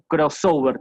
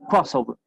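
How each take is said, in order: First: The stress is on a later syllable. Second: The stress is on the first syllable. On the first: The speaker calls it wrong. "ponemos el acento ahí por cualquier lado" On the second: The speaker calls it right. "el énfasis lo pongo en la primera sílaba"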